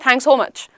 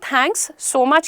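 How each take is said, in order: First: The words are rushed and run together. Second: Each word is said slowly and clearly. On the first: The speaker calls it wrong. "इतना तेज बोल दोगे, वो ... sound करेगा" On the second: The speaker calls it right. "धीरे बोलो"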